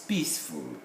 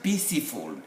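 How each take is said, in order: First: The e is silent, giving two syllables. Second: The silent e is voiced, adding a syllable. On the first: The speaker calls it right. "it's peaceful, the way it is written" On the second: The speaker calls it wrong. "It's not peaceful"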